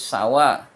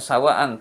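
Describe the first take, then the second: First: The word ends on an open vowel. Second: The word ends with an n sound. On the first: The form is adjusted to fit the poem's meter. "tapi sawa" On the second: This is the original grammatical form. "Di sini bukan sawaan"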